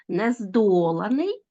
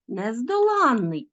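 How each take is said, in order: First: Нездоланий slow, -DO- drawn out, rising end; stress on the root. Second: Нездоланний slow, stressed on -LAN-; stress on the suffix. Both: Shown as a demonstration. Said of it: "звертайте увагу на наголос".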